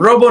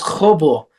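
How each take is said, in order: First: The name begins with an English R sound. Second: The name begins with an H sound. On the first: The name is read the American way. The speaker calls it wrong. "R doesn't sound like an R" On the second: The name is said as its owner says it. The speaker calls it right. "sounds like an H"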